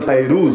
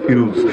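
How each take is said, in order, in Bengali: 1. প্রথম সিলেবলে 'ai' ডিফথং আছে। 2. প্রথম সিলেবলে সাধারণ 'i' স্বরধ্বনি আছে। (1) "যার নাম ফাইরুজ" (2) "বাংলায় বলে ফিরুজ"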